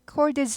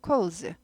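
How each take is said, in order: First: The d sound is fully pronounced. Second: The d sound is swallowed and barely heard. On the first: The speaker calls it wrong. "콜드즈 하지 않고" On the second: The speaker calls it right. "묻혀갑니다"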